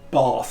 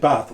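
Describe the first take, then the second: First: The name is said in a posh way. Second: The name is said in a plain way. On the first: This is how residents say the name. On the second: This is how outsiders say the name.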